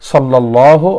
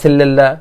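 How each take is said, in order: First: The first syllable is said with an 'a' vowel. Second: The first syllable is said with an 'e' vowel. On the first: The speaker calls it right. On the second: The speaker calls it wrong.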